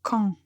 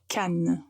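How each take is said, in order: First: The final vowel is nasal with no n sound. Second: The final vowel is followed by a clear n. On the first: It names a town in the north. The speaker calls it wrong. "la faute de la semaine" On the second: It names a town in the south. The speaker calls it right. "il faut bien prononcer la lettre N"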